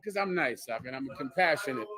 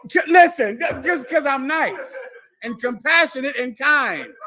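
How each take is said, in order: First: Soft, low, matter-of-fact; understated boast. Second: High, insistent, playful proclamation; loud mock boast. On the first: Pretend. Telling Doc why he gives, soft modest boast. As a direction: drop it low and quiet. First take, before asked to repeat. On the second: Asked to say it again, loud insistent repeat.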